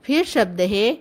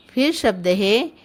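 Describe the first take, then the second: No difference in how they are said.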